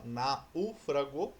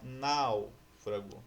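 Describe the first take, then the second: First: "náufrago" with U as its own syllable, na-U-fra-go; split diphthong. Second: Said in the usual way. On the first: Shown as a demonstration. Teacher showing the unnatural version, "náufrago" broken as na-U-fra-go. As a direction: separate the A and U in "náufrago". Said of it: "ele não é uma sílaba sozinha". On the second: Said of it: "ou você fala náufrago".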